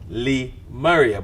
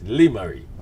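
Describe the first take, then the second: First: The name ends with an extra 'ah' syllable. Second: The name ends on the 'ree' syllable. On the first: The speaker calls it wrong. "in my mind, I got Lee Maria" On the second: The speaker calls it right. "but it's Lee Murray"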